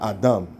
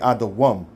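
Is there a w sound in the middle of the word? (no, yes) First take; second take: no; yes. First: No w sound is heard in the middle. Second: A w sound is heard in the middle. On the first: The speaker calls it wrong. "not Adam" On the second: The speaker calls it right. "it's really Adawam"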